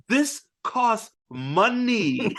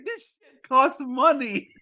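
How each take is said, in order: First: Each word spelled out slowly; mock captain hammering the point home; slow, deliberate. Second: High, laughing through the quote; can't keep a straight face; giggling mock captain. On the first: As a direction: drag out This costs money word by word. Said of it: "He's like". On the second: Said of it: "he's like".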